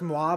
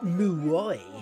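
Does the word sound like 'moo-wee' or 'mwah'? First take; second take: mwah; moo-wee. First: The word is said as one syllable, 'mwah'. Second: The word is said with two syllables, 'moo-wee'. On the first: The word is said as a French speaker would. The speaker calls it right. "I know it's moi" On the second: The character does not know the French word. The speaker calls it wrong. "I think it'd be funnier if if he didn't know that"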